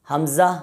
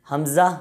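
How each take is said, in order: No difference in how they are said.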